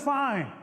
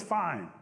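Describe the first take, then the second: First: High, petulant comeback; huffy retort. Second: Said in the usual way. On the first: Acted. Possum answering Rabbit in a squabble, huffy. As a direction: throw the word back higher.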